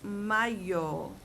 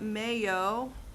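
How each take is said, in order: First: The word is said with Spanish vowel sounds. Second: The word sounds like the English word mayo. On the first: It means the month of May. The speaker calls it right. "No, it's mayo" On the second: It means mayonnaise. The speaker calls it wrong. "not mayo, okay, like short for mayonnaise"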